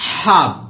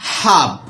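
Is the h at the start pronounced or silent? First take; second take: pronounced; pronounced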